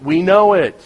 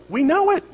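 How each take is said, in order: First: Emphatic. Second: High rising. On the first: Repeated, loud falling. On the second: Repeated, pitch jumps high. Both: Acted.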